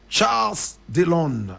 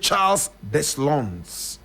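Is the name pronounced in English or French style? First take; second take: French; English. First: The name is said with a French pronunciation. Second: The name is said with an English pronunciation. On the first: "French pronunciation" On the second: "But in English we say"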